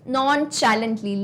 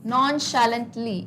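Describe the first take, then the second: First: The middle of the word starts with a 'ch' sound. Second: The middle of the word starts with an 'sh' sound. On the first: The speaker calls it wrong. "इसको कुछ लोग कैसे pronounce करेंगे?" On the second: The speaker calls it right. "लेकिन यहां पे sound आएगा श का।"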